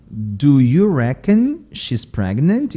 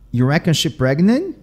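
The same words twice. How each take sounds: First: Slow, whole "Do you reckon she's pregnant"; full careful forms. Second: Quick "You reckon she pregnant" with no do or is; Southern dropped words. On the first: Teacher giving the full version, slow "Do you reckon she's". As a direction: take "Do you reckon she's" slowly, word by word. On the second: Teacher giving a Southern example, "reckon she pregnant" run together. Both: Shown as a demonstration. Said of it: "eu tirei o verbo to be".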